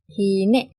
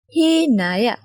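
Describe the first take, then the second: First: The word is shortened, ending in -e. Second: The word is said in full, ending in -aya.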